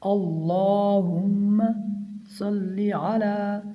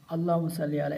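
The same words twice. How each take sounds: First: Slow chant, "अल्लाहुम्मा" loud and drawn out; name made clear. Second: Very fast "अल्लाहुम्मा", long vowel cut short; careless wrong reading. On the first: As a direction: recite "अल्लाहुम्मा" with Allah's name fully sounded. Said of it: "नाम को जाहिर करके पढ़ना है". ("अल्लाहुम्मा" में नाम ज़ाहिर करके) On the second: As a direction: gabble "अल्लाहुम्मा" without sounding Allah's name fully. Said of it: "ऐसे नहीं पढ़ना". ("अल्लाहुम्मा" जल्दी में दबाकर) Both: Shown as a demonstration.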